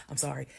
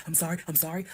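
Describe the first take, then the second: First: Said in the usual way. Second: Mocking apology. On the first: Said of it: "he was like". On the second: Mocking her ex's apology to his face, sarcastic. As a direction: mimic his sorry with a sarcastic rising whine. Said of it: "got the audacity to now be like".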